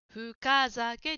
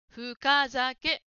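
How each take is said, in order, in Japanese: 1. 'ka' の音は、はっきり発音されている。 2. 'ka' の音は、はっきり発音されている。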